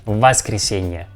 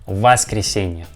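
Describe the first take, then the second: First: The first vowel is an a sound. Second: The first vowel is an a sound.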